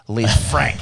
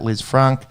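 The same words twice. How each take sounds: First: The name is pronounced the Australian English way. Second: The name is pronounced the French way. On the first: "as we would say" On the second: "I went for French pronunciation"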